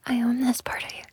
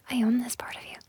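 Both takes have the same delivery.

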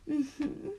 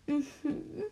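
Both takes have the same delivery.

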